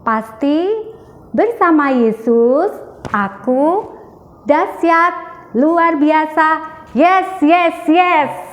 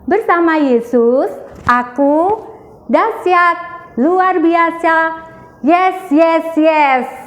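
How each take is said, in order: First: It is said with less energy. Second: It is said with more energy.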